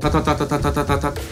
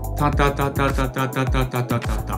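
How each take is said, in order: First: The syllable ta is repeated at a quicker speed. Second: The syllable ta is repeated at a moderate speed. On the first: "もうちょっと早く。" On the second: "これぐらい。"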